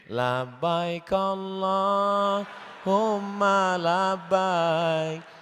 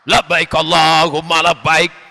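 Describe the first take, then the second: First: It is said softly and gently. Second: It is said loudly and forcefully.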